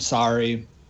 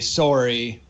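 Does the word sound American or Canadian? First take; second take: American; Canadian. First: It is said with an American accent. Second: It is said with a Canadian accent. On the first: "we're trained to speak American. So we say out and sorry" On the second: "most Canadians would say sorry and out"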